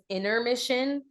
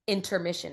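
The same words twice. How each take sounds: First: The word begins with 'inner', with no t sound. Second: The word begins with 'inter', with a t sound. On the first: It is a play on words about an inner mission. The speaker calls it right. "even though it says intermission" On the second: It is the ordinary word for a break in a show. The speaker calls it wrong. "they still say in interviews and everything or in conversation intermission"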